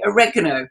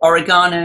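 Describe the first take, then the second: First: It is said with an American pronunciation. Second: It is said with a British pronunciation. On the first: "you say oregano" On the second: "We say oregano"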